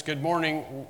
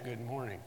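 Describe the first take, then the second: First: Said in the usual way. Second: A quiet, careful mock good morning as if weighing each word; deliberate greeting. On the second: Shown as a demonstration. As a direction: pretend to think hard before answering "Good morning". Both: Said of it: "we don't stop and say".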